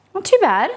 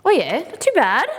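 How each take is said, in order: First: Higher and louder, delighted; excited. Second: Said in the usual way. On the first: Real, not acted. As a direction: repeat it with real delight. Repeats with more delight.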